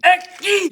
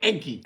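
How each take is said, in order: First: "Eggy" called out high and loud, sing-song; corrected, high and loud. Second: Said in the usual way. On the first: Shown as a demonstration. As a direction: say "Eggy" again, bright and louder as the fix.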